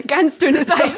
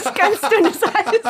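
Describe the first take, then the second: First: Laughing. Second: Slow, higher, through laughter; laughing, drawn out. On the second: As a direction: stretch it out while laughing. Repeats warning, drawn out and laughing. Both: Acted.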